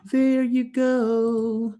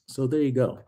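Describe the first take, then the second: First: "There you go" stretched very slow and much higher; drawn-out sing-song. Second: Said in the usual way. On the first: Acted. Vlogger closing his bar tour for viewers, drawn-out sing-song "There you go". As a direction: sing "There you go" in a long playful drawl.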